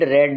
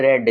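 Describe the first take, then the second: First: The vowel is a short 'e' sound. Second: The same.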